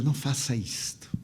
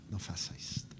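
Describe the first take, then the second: First: Said in the usual way. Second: Whispered "não faça isto", no voice. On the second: Retold or imitated. Kneeling speaker whispering back to the weeping man. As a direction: breathe the plea in a hush.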